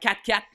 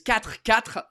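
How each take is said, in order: First: It is said quickly, the words running together. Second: It is said at an ordinary, unhurried pace.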